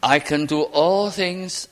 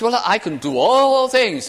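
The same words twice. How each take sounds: First: Slow, humble and measured. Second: High, loud, proud boast; brash bragging claim, pitched high and loud. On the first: Shown as a demonstration. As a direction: say it humbly, leaning on all. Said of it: "it's a very humble statement". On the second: Retold or imitated. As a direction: crow it like a braggart. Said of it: "Oh, what a boaster".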